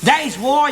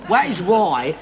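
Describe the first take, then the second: First: Said in the usual way. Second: That is why, spoken slowly with weight on that; slow, insistent stress on that. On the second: Shown as a demonstration. Husband silencing his mate to lay down the point, slow and insistent. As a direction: lean on that, slowly, to make him listen. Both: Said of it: "you shut up and listen a minute".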